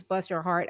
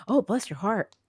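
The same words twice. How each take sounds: First: Said in the usual way. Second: Sugary fake pity with a rising oh; syrupy sweet, faintly condescending; honeyed Southern put-down; mock sweet sympathy. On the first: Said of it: "actual people who use". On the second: Shown as a demonstration. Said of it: "as in".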